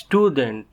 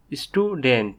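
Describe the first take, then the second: First: Said in the usual way. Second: "student" in two beats, stu, dent; split into syllables. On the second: Shown as a demonstration. Teacher showing learners the two syllables, "student" split in two. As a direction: say "student" with a small break after stu. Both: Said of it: "each of these words has two syllables".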